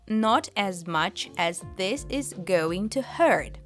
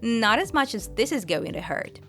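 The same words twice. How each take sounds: First: Each word is pronounced clearly and separately. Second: The words flow together into one phrase. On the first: The speaker calls it wrong. "if you try to say every word clearly" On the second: The speaker calls it right. "everything gets linked together"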